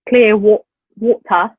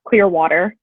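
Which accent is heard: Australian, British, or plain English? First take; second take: British; plain English. First: It is said in a British RP accent. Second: It is said in a plain English accent. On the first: "in British it's like" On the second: "like in English"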